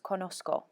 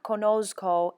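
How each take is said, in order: First: The consonant before the k is a hissing s. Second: The consonant before the k is a buzzing z. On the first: The speaker calls it right. "in Spanish it's an S" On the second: The speaker calls it wrong. "with the Z sound"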